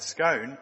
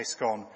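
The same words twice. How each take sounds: First: "scone" rhymed with "stone", long o; "scone" in the stranger's way. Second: "scone" rhymed with "gone", short o; "scone" the local way. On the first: Guard mimicking a stranger, "scone" with a long o. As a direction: quote the outsider's "scone" with a long o. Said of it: "with our accent?". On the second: Guard giving the local "scone" with a short o. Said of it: "And we say scone". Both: Shown as a demonstration.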